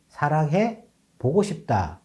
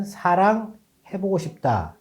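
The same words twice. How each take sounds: First: 사랑해 joined, break, then 보고 싶다; group it as 사랑해, 보고 싶다; split after 사랑해. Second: 사랑 set apart, then 해보고 싶다 joined; group it as 사랑, 해보고 싶다; run together as 해보고. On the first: Presenter showing the other person's reading, pause before 보고. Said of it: "이렇게 읽었습니다". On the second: Presenter showing one person's reading, pause before 해보고. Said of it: "이렇게 읽고". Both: Shown as a demonstration.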